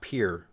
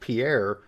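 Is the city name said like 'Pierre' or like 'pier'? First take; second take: pier; Pierre. First: It is said like the word pier. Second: It is said like the name Pierre. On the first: The speaker calls it right. "actually pronounced Pier, kind of like the fishing plank" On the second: The speaker calls it wrong. "looks like it might be pronounced Pierre"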